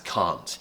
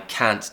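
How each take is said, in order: First: The vowel is long and open, southern British-like. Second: The vowel is short and flat, American-like. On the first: "you don't have to pronounce the word can't as can't" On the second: "you think, that's an American accent. It's not"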